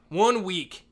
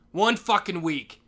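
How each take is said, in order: First: Said in the usual way. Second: Slow, heavy, every word dragged; weary drawn-out. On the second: Real, not acted. Janitor dragging out the last week. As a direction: sigh it out slowly.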